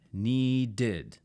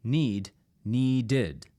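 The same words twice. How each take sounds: First: Needed slowly as nee-ded; two syllables. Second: Need then needed, the second with its extra syllable; contrast demo. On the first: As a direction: spell out the two beats of needed. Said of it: "That's two syllables". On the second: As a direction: show need becoming needed. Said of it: "But notice this". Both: Shown as a demonstration.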